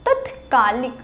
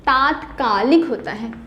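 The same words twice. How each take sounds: First: तत्कालिक said with a short त at the start; wrong form read out. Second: तात्कालिक said with a long ता at the start; correct form. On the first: (तत्कालिक छोटे त के साथ) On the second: (तात्कालिक लंबे ता के साथ) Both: Shown as a demonstration. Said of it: "तत्कालिक कोई शब्द नहीं".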